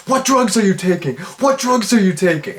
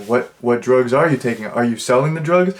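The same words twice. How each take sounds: First: Much higher, hammed-up hysterical mother's questioning; overacting mom. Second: Said in the usual way. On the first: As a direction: overact it like a shocked soap-opera mom. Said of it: "overacting to the extreme". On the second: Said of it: "they're like".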